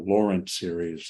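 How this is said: The name is said with an American accent. "in an American accent"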